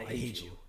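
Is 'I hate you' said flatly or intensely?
flatly. It is said flatly, without real feeling. The line does not land and draws no real reaction. The speaker calls it wrong. "If you said it like that, it'd be like, oh, okay, like, cool"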